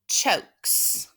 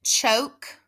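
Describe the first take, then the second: First: Chokes whispered with the final s stressed; adding the suffix. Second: Said in the usual way. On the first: Shown as a demonstration. Teacher showing the suffix s added to choke. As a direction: breathe out the s of chokes. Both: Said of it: "And then add your suffix".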